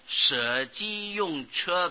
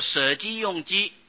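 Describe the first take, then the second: First: The last syllable is pronounced che. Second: The last syllable is pronounced ju. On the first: The speaker calls it right. "所以把它念作送舍鸡用车比" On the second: The speaker calls it wrong. "假如都念作舍鸡用鸡不大好啊"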